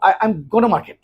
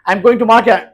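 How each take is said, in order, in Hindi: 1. 'Going to' को 'gonna' बोला जाता है। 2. 'Going to' पूरा बोला जाता है।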